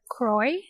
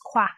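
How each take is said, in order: First: The name sounds like 'Croy', with an r. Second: The name sounds like 'Qua', without an r. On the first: This is how other people often say it. The speaker calls it wrong. "a lot of p- times I hear Croy" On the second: This is how the name is actually pronounced. The speaker calls it right. "my last name is pronounced Qua"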